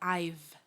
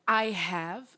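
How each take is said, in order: First: The words are contracted into one syllable. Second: Both words are said fully and separately.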